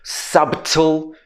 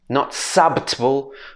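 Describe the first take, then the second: First: The B is silent. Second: A B sound is heard in the middle. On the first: The speaker calls it right. "S-a-t-l. Four sounds" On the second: The speaker calls it wrong.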